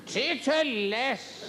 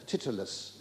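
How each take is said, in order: First: TITTERLESS drawn out very slowly, high-pitched; hammed-up exclamation. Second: Said in the usual way. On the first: Comic deploring humourless caller, "Titterless" slow and high. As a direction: stretch "Titterless" syllable by syllable, high and theatrical. Repeats word in mock outrage.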